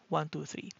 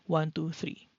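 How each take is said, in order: First: The voice is heard without any tonal enhancement. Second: The voice is processed to sound warmer and fuller. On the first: "let's start with off first" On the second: "microphone test with warm voice enhancer"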